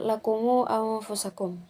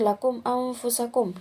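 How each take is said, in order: First: The mim is followed by a long u. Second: The mim is silent with no following vowel.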